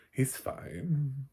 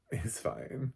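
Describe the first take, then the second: First: Fine stretched higher; emphatic reassurance. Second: Softer reassurance. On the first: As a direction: lean on fine, pitched up. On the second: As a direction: settle it gently, quieter. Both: Real, not acted. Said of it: "It's like".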